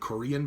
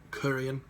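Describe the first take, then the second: First: The first syllable is said short and normal. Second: The first syllable is drawn out long. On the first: "almost like saying Korean" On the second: "you stretch that first uh, uh, part out"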